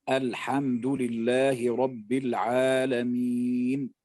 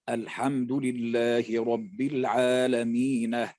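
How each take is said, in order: No difference in how they are said.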